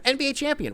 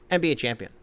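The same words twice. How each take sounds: First: Very high-pitched champion hype; impressed. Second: Unimpressed. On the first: Host redoing the title respectfully, high and impressed. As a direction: proclaim it way up high in awe. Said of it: "Whoa, impressed". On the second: Host reading a minor player's title, unimpressed. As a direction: toss it off with no hype. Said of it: "Can't be disrespectful". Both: Pretend.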